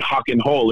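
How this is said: The R sounds are said like an H. "They even say hock and hole"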